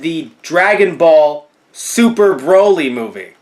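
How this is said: 'Super' is grouped with 'Broly' after 'Dragon Ball'. Broly himself is super, like the Super Saiyans. The speaker calls it wrong. "I said the wrong inflection in the name of the movie"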